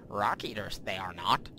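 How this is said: It is said in an attempted Yoda voice.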